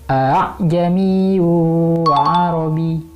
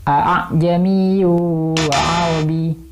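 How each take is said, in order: Both takes have the same delivery.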